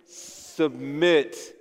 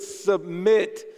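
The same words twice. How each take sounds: First: It is said flatly, without energy. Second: It is said with lively energy.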